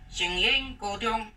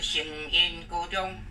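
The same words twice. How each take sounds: First: The second syllable is not in the sixth tone. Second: The second syllable is in the sixth tone. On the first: The speaker calls it wrong. "这是错误的" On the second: The speaker calls it right. "这个烟字要练第六调"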